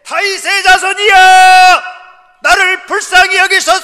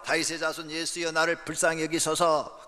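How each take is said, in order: First: The cry is shouted louder and more urgently. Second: The cry is said at a softer level.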